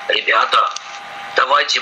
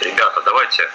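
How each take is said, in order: First: It is said in a low, deep voice. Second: It is said in the speaker's normal voice.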